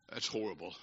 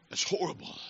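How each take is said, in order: First: Very low, barely audible; grave near-silence. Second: Hushed, voiceless emphasis; grave whisper. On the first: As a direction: let it sink to a low, grave murmur. Grave verdict after the joke. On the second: Preacher repeats his verdict to the congregation, in a grave whisper. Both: Real, not acted.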